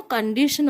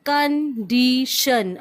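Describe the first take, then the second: First: Said in the usual way. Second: Slow "Condition", each syllable set apart: con-di-tion; teacher spelling out "Condition" syllable by syllable for the class; broken into syllables. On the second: Shown as a demonstration. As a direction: say "Condition" slowly in three clear beats. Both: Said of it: "break it into three syllables".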